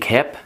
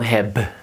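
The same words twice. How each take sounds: First: The word ends with a voiceless p sound. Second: The word ends with a voiced b sound. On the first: The speaker calls it right. "it's pronounced like a P" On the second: The speaker calls it wrong. "the B is not heb"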